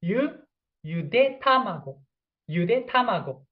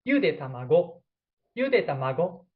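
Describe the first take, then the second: First: "yude tamago" with native pitch, falling on "tamago"; correct pitch accent. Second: "Yude tamago" with rising pitch on "yude"; wrong pitch accent. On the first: Teacher demonstrates the correct "yude tamago" for boiled egg. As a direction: say "yude tamago" the right way, pitch dropping at the end. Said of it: "if I pronounce correctly". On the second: Teacher shows the wrong pitch that means boiled grandchildren. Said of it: "if you have wrong way". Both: Shown as a demonstration.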